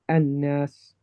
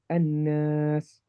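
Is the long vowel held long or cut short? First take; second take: short; long. First: The long vowel is cut short like a fatha. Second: The long vowel is held for its full length. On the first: The speaker calls it wrong. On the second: The speaker calls it right.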